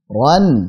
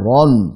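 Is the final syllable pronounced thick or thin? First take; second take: thin; thick. First: The syllable is pronounced thin and light. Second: The syllable is pronounced thick and heavy. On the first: The speaker calls it right. "Harusnya khairon, ron" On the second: The speaker calls it wrong. "jangan ron"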